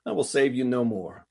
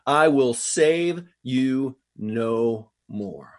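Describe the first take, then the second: First: Mild, easygoing delivery at normal pace; nice, casual. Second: Very slow, each word drawn out; grave pronouncement. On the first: Shown as a demonstration. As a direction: say it nicely, with no weight on it. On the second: A narrator's reading. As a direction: pronounce it slowly, word by weighty word. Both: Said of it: "nice and just kinda say it like".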